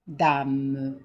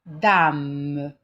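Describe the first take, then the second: First: Said in the usual way. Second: Dame called out loud and clear; loud example word. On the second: Shown as a demonstration. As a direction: announce Dame firmly to the class. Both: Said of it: "il y a des exemples ici".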